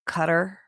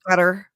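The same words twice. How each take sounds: First: The first sound is a plain English k. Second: The first sound is made deep in the throat. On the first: "isn't it like Qatar" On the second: "more guttural"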